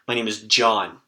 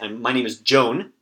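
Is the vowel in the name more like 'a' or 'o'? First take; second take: a; o. First: The name is said with an 'a' vowel. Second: The name is said with an 'o' vowel. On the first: The speaker calls it right. "So I would probably put the A sound on it" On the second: The speaker calls it wrong. "I don't say"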